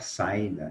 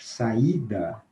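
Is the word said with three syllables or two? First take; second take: two; three. First: The a and i merge into one syllable. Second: The i is stressed in its own syllable. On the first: The speaker calls it wrong. "Se nós não colocarmos o acento no I, que é forte, vai ficar" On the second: The speaker calls it right. "quando ele forma hiato, ele fica numa sílaba separada"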